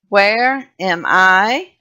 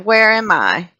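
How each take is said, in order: First: It is said slowly. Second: It is said fast.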